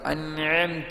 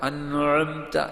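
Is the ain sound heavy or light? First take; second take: light; heavy. First: The ain sound is thin and light. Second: The ain sound is thick and heavy. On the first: The speaker calls it right. "നേർത്ത സ്വരമാണ് വരേണ്ടത്" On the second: The speaker calls it wrong. "കനപ്പിച്ച് പറയാൻ പാടില്ല"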